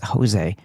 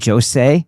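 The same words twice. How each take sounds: First: The name begins with a soft, non-J sound. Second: The name begins with a hard J sound. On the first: The speaker calls it wrong. "you don't pronounce the J like that" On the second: The speaker calls it right. "It actually is a hard J"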